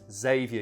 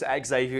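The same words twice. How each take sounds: First: The name starts with a plain z sound. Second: The name starts with a ks sound. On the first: "You don't pronounce the X" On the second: "It sounds way too cool that way"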